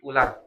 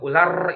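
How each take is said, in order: First: The final r is trilled only lightly. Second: The final r is trilled heavily. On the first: The speaker calls it right. "tapi ular" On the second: The speaker calls it wrong. "kalau ular itu kebanyakan"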